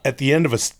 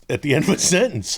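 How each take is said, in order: First: Said in the usual way. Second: Imitating a voice giving out at sentence end; running out of voice. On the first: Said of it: "I was gonna say". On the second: Interviewer imitating the actor's old voice, running out of voice. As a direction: let the voice run out on "sentence". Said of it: "then I would run out of voice".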